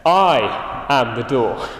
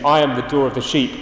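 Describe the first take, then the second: First: "I am the door." said slowly, word by word; slow weighty emphasis. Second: Said in the usual way. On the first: Shown as a demonstration. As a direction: lean on each word of "I am the door.". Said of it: "I do think he is emphasizing this". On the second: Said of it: "I wonder if you can hear the emphasis of his words".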